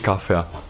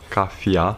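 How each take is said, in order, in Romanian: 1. Ultima silabă se rostește cu un 'ea' standard. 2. Ultima silabă se rostește cu un 'ia' ardelenesc. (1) "EA corect în limba română" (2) "acel IA ardelenesc"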